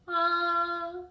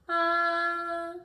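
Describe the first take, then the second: First: The pitch stays level and steady. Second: The pitch stays level and steady.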